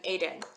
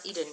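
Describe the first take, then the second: First: ADEN said AY-den; Hebrew pronunciation. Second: EDEN said EE-den; English pronunciation. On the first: Teacher switching to the Hebrew form, ADEN as AY-den. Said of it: "Now we're doing Aden". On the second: Teacher dropping the English form, EDEN as EE-den. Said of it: "No more Eden". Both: Shown as a demonstration.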